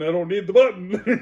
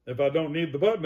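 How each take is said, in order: First: "button" louder with a rising tune; emphatic retort. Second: Said in the usual way. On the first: Real, not acted. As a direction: punch "button" home, higher and louder.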